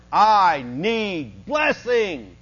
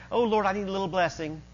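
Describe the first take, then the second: First: Very slow, drawn-out emphatic plea; crying out to God. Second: Casual little prayer. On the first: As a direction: cry it out, stretching each word. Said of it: "he is crying out to God". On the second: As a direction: ask lightly, as if it hardly matters. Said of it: "Not just". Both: Acted.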